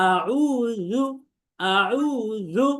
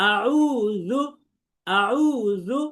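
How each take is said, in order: No difference in how they are said.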